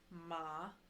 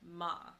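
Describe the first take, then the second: First: The pitch dips low, then rises. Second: The pitch falls sharply from high to low. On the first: The word means horse. "it goes down and then back up" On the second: The word means to scold. "your fourth tone, which is your falling tone"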